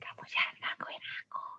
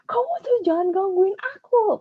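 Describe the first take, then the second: First: It is said in a soft whisper. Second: It is said loudly and angrily, near shouting. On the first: This is not how an angry person sounds. The speaker calls it wrong. "nggak mungkin ada yang bisik-bisik ya" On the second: The person is genuinely angry. The speaker calls it right. "Pasti orang kalau lagi marah"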